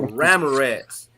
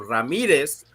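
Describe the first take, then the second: First: The name has an English pronunciation. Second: The name has a Spanish pronunciation. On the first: This is the adopted pronunciation others used. "to Ramirez" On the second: This is the name's original pronunciation. "I changed the pronunciation of my name from Ramirez"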